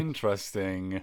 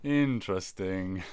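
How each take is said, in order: First: Low, slow "interesting"; skeptical drawl. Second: Low, slow, doubtful "interesting"; skeptical drawl. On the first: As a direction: draw it out, unconvinced. Skeptical drawn-out reaction. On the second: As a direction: say it slower and unconvinced. Repeated skeptical reaction. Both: Real, not acted.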